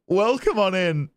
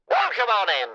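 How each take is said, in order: First: It is said in a normal voice. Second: It is said in a put-on character voice.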